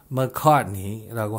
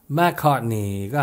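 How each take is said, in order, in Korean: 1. 첫 음절은 강세가 없고 모음이 약하게 줄어서 발음됩니다. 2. 첫 음절은 강세가 있고 모음이 완전하게 발음됩니다. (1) "오리지널 발음은" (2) "맥카트니가 아니라"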